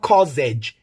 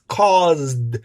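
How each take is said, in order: First: The word ends with a J-like sound. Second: The word ends with a plain D sound. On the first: The speaker calls it wrong. "it's not causage" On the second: The speaker calls it right. "it's caused"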